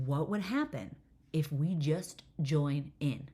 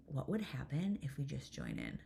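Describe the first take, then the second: First: Spaced-out, emphatic question; slow, deliberate repeat. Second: Softly floated question; quiet suggestion. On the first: Mom repeating herself to a puzzled daughter, slow and deliberate. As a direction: spell the idea out slowly, word by word. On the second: Mom quietly proposing an idea to her daughter, quiet suggestion. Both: Retold or imitated.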